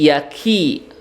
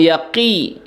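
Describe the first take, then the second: First: The middle consonant is a plain k sound. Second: The middle consonant is a deeper throat sound. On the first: The speaker calls it right. "ki-nya kaf" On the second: The speaker calls it wrong. "Jangan yaqi"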